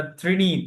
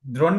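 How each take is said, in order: First: ত্রিণী with "i" in both syllables, "tri-ni"; teacher's corrected ত্রিণী, a clear "tri" first; correct pronunciation of ত্রিণী. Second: দ্রোণী with an "o" vowel in the first syllable; higher-pitched দ্রোণী, the wrong "o" version; mispronounced ত্রিণী. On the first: Shown as a demonstration. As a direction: model ত্রিণী as "trini", not "droni". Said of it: "এটা ত্রিণী". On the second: Retold or imitated. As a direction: echo the learner's slip as "droni". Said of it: "দ্রোণী না তো".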